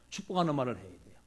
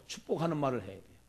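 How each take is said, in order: Both takes have the same delivery.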